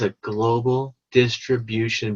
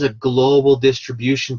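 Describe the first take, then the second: First: The phrase is said slowly and deliberately. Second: The phrase is said at a normal pace.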